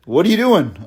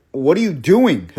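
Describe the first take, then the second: First: Laughing. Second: Said in the usual way. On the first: Retold or imitated. To the date dangling his keys, laughing. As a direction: laugh through a nervous repeat.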